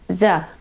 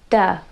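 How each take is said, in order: First: It begins with a z sound. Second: It begins with a d sound. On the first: "or the" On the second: "they say duh"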